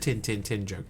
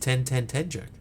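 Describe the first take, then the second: First: It is said in a New Zealand accent. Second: It is said in the speaker's usual accent.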